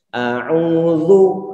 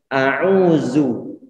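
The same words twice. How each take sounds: First: The consonant is a soft th, tongue between teeth. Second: The consonant is a plain z, tongue kept inside. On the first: The speaker calls it right. "ini kita tempelkan di ujung gigi seri bagian atas, kemudian dikeluarkan sedikit saja" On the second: The speaker calls it wrong. "lidahnya ditarik ke dalam dan tidak dikeluarkan, nanti yang keluar itu suara zu"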